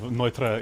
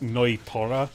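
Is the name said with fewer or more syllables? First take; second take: fewer; more. First: The name is said with fewer syllables. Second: The name is said with two extra syllables. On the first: The speaker calls it right. "It's Neutra" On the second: The speaker calls it wrong. "the English pronunciation of of Neutra is Noitora"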